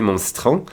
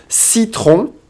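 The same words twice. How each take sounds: First: "citron" with the I skipped, like "stron"; Canadian dropped I. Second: Said in the usual way. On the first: Retold or imitated. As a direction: swallow the first vowel of "citron". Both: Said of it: "we would never skip that I".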